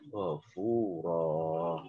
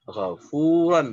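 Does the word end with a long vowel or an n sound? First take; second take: long vowel; n sound. First: The word ends with a lengthened vowel. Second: The word ends with an n sound. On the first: The reader stops on this word. "dibaca fathah dengan panjang satu alif atau dua ketukan" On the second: The word is read without stopping. "fathah ten"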